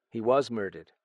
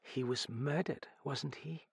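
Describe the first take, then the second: First: WAS leaned on, falling firmly; firm confirmation. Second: Soft, halting, rising question; quiet question. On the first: Acted. Other character confirms her question. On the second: A narrator's reading. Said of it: "She asked quietly".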